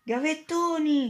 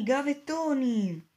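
First: High, slow, drawn-out yell of gavettoni; yelled alarm. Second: Gavettoni yelled again, high and slow; second yell. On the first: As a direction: call out gavettoni as a warning to everyone. (urlo alto e lento: gavettoni) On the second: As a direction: keep shouting gavettoni across the hall. (urlato di nuovo, alto e lento) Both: A narrator's reading. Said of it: "Poi qualcuno urlò".

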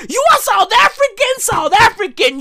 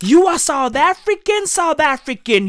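First: Shouted chant. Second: Said in the usual way. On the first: Acted. Repeated chant in shouted rant.

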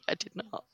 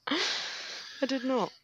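First: Said in the usual way. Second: Slow, high, drawn-out I did not; mock denial. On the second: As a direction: stretch out a playful protest.

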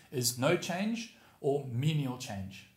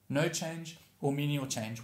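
First: Slow emphatic. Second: Slow repeat. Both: Shown as a demonstration.

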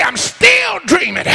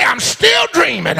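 First: Shouted out, pitched up high and strong; loud holler. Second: A first holler of the line; called out. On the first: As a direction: belt it out so the whole church hears. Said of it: "I didn't hear you. Say". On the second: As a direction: call it across the church, not yet at full force. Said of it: "Holler across the church". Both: Shown as a demonstration.

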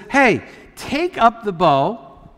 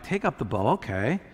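First: Slow, drawn-out command; stretched-out instruction, acted as the prophet. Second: Low, soft aside; understated, dropped-down instruction; offhand retold command. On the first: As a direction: give the order deliberately, word by word. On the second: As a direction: repeat the order quietly in passing. Same command repeated as an aside.

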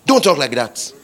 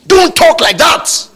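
First: Said in the usual way. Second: High, loud scolding; shouted rebuke. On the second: Acted. Preacher rebuking talk of just managing, shouted. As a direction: cut in with a raised-voice reprimand.

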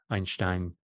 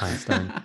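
First: "Einstein" said German style, Ine-shtine with sh; German pronunciation. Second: "Einstein" said English style, Ine-stine with plain s; "Einstein" the usual English way, Ine-stine; English pronunciation. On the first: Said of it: "I'm happy to do it in the Canadian accent". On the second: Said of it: "I'll just stay Einstein". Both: Shown as a demonstration.

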